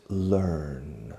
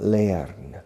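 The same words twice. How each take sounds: First: "learn" with one ER vowel, as "lurn"; correct pronunciation. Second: "learn" wrongly said as spelt, with an "ea" glide; learner's spelling-based "learn"; mispronunciation. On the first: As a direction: say "learn" low and drawn out as LERN. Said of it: "It's learn". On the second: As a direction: say "learn" as LEH-arn. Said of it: "the pronunciation is not learn". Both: Shown as a demonstration.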